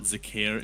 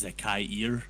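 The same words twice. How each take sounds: First: Zakair said "zuh-CARE", two syllables; mispronounced Zakair. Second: Zakair said slowly as "za-kai-EER"; corrected Zakair pronunciation. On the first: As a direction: run the end of Zakair together as "care". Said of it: "it's not Zakair, it's Zakair". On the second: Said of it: "meant to be an accent over". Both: Shown as a demonstration.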